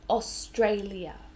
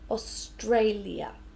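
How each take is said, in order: First: All syllables are said clearly and separately. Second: All syllables are said clearly and separately.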